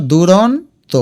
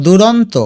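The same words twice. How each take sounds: First: দুরন্ত slowly as duron, then to; broken into parts. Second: Said in the usual way. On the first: Shown as a demonstration. Teacher shows students the split, দুরন্ত in slow parts. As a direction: pause before the last beat of দুরন্ত. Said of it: "দেখো দুরন্ত". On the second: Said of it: "এটা দুরন্ত".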